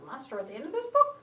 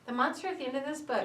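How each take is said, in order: First: It is said in a put-on character voice. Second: It is said in a plain, flat voice. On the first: The speaker calls it right. "I tend to do Grover's voice" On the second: The speaker calls it wrong. "that's a lot more interesting to listen to than"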